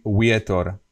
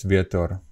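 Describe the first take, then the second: First: Vietor said as "wietor"; a full English W opening vietor; W at the beginning. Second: Vietor with V, not W; loose-lipped V opening vietor; Slovak V. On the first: Teacher shows the wrong version, vietor starting with W. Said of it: "if I used W at the beginning". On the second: Teacher corrects to vietor with Slovak V. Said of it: "it's not really W". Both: Shown as a demonstration.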